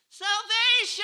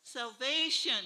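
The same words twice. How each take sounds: First: It is said loudly, with more force. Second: It is said at normal volume.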